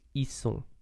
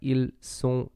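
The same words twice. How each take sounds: First: It is pronounced in a casual, reduced form. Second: It is pronounced carefully in its full form. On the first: "native speakers would say ils sont. It sounds pretty odd" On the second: "it's more like ils sont"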